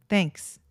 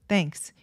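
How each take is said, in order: No difference in how they are said.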